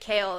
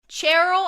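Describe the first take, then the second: First: The name starts with a hard K sound. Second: The name is said with an added R sound. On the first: This is how it was said in an online video. "there was a way of someone pronouncing it and it was like Kale" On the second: This is how the speaker used to read it. "Cheryl, I put an R in there"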